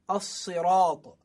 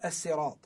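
First: The s is heavy and emphatic, like sad. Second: The s is light and plain, like seen. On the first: This is the later, easier form used today. "it became as-sirat" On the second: This is the original form of the word. "instead of as-sirat"

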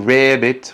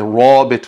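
First: The vowel after r leans toward an e sound. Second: The r is said heavy and emphatic. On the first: "you don't say rabbit with imara" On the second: "you don't say rabbit with tafkhim"

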